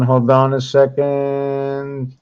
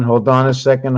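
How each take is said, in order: First: Slow drawn-out hold on. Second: Said in the usual way. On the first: Real, not acted. Teacher stalling at the screen, slow and drawn out. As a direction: stretch out Hold on a second slowly. Repeats phrase while searching.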